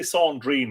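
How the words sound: It is said in a put-on French accent.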